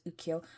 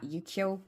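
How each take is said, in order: First: The word begins with an 'oo' sound. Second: The word begins with a 'yoo' sound. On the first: The speaker calls it right. "I'm hoping it's Ukiyo" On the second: The speaker calls it wrong. "which is how I was pronouncing it"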